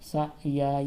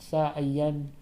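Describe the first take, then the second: First: The word ends on a plain vowel. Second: The word ends with an n sound. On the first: The reciter stops at the end of the verse. "वरना ये सा या" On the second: The reciter continues without stopping at the verse end. "और अगर ठहरा नहीं जाता, वक्फ नहीं किया जाता, यन हो जाता है"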